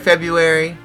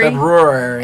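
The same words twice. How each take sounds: First: The first r is dropped. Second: The first r is clearly pronounced. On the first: "If I was just going to say it" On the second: "I feel like I have to emphasize the February"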